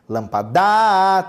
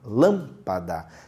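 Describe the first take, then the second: First: The stress is on the last syllable. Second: The stress is on the first syllable. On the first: The speaker calls it wrong. "tem que forçar a última. Não ficou bom também" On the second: The speaker calls it right. "a antepenúltima"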